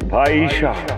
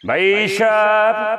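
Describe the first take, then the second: First: It is said in a soft, gentle tone. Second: It is said forcefully, like calling a protest strike. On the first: It is meant to melt people's hearts so they come. "নরম সুরে কবি" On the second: It sounds like a call for a strike. "মনে হইতেছে তুই হরতালের ডাক দিতেছস।"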